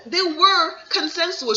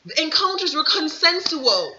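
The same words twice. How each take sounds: First: "were" punched, higher and slow; stress on were. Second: Said in the usual way. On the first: Shown as a demonstration. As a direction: lean hard on "were" in "They were consensual". Repeats claim with emphasis.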